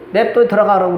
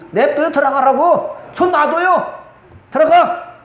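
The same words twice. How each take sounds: First: Said in the usual way. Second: Slower, higher, insistent let-her-go; emphatic retort. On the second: Retold or imitated. Preacher telling mourners to let the daughter go, insistent and higher. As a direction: push it, daring her to jump in. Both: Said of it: "내가 그랬다니까요".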